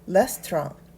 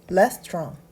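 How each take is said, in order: The two takes are said the same way.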